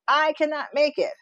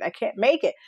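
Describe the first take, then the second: First: High despairing wail; hammed-up wail of giving up; mock despairing wail. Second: Rising despair. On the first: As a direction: cry it out higher, at the end of your rope. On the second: Retold or imitated. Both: Spiralling self-talk quote.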